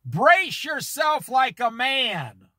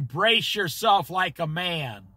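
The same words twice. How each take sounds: First: Slow and weighty, each word given room; preacher reading scripture slowly so it sinks in; slow deliberate reading. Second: Said in the usual way. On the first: Shown as a demonstration. Preacher slows down so the congregation can think, slow weighty reading. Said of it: "read slow so you can think about it". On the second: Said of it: "read slow so you can".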